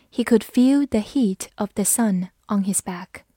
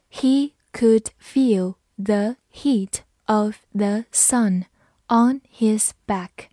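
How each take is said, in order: First: Said in the usual way. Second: Slow, word-by-word model sentence. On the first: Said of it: "慢读一遍". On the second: Shown as a demonstration. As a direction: read slowly with a small gap after each word. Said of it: "好，慢读一遍". (逐词慢读示范)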